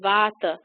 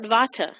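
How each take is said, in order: First: The T is pronounced soft. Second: The T is pronounced hard. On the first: "it should be pronounced Vata" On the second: "If you can't pronounce that soft T, call it Vata"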